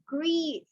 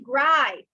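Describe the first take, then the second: First: The vowel sounds like "ee". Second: The vowel sounds like "eye". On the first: The speaker calls it right. "It's grief" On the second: The speaker calls it wrong. "Do not say gripe"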